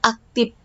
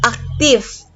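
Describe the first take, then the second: First: The word ends with a P sound. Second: The word ends with an F sound. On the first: The speaker calls it wrong. "diganti dengan huruf P, itu tidak boleh" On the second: The speaker calls it right. "Huruf F pada akhir kata"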